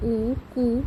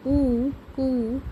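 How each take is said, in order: First: Said in the usual way. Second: "ऊ कु" stretched very slowly; slow sound drill. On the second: Shown as a demonstration. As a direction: draw out "ऊ" then "कु" for children. ("ऊ कु" को बहुत धीरे खींचकर बोलें)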